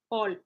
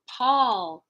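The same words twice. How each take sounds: First: The P has no puff of air. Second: The P has a puff of air. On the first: The speaker calls it wrong. "you don't want to go back into French and be like Paul" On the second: The speaker calls it right. "We want to talk about Paul"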